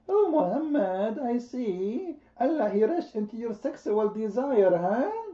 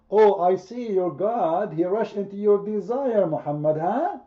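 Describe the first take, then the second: First: It is said in a put-on woman's voice. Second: It is said in his normal voice.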